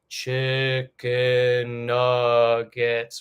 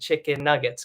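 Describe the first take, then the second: First: The syllables are drawn out long. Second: The syllables are quick and even.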